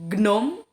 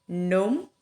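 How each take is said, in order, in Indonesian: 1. Bunyi g dibaca di awal. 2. Bunyi g di awal tidak dibaca. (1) "nggak dibaca gnome" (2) "huruf G itu tidak dibaca"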